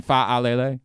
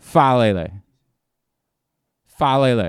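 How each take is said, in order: First: Faalele with the first vowels split apart; wrong way he's been saying it. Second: Faalele run quickly as one flowing word; rolled-through name. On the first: Host shows how he has been mispronouncing the name. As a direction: Faalele pulled into separate syllables. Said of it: "I've been saying". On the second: Host practices the name the correct way. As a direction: roll right through Faalele. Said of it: "You gotta roll right through it". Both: Shown as a demonstration.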